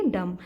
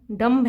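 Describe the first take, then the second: First: "डम" ending on the m, b silent; correct pronunciation. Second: "डम्ब" with the final b sounded out; spelling-style pronunciation. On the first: Teacher gives students the right reading, b silent. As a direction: clip "डम" short with no b at the end. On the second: Teacher shows students the spelled-out wrong way, b sounded. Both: Shown as a demonstration. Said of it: "लेकिन इसे हम क्या पढ़ेंगे".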